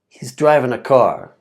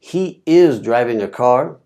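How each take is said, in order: First: He is is contracted to one syllable. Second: He is is said as two full words. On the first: "it comes out sounding like what you see in the blue here" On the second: "you can see that he is driving a car"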